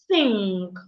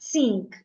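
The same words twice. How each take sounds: First: It starts with a voiceless th sound. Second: It starts without a voiceless th sound. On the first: The speaker calls it right. "it's think" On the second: The speaker calls it wrong. "not think"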